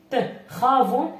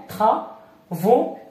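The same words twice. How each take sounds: First: Travaux stretched slowly, the r like a throaty kh; slow teacher demo of travaux. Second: Said in the usual way. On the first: Shown as a demonstration. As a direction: spell out travaux slowly as txavo for a learner. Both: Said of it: "لماذا تنطق خا؟".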